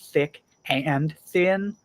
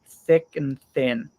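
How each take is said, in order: First: The word 'and' is said in full. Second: The word 'and' is reduced to 'n'. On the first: "You don't need to say" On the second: "but just"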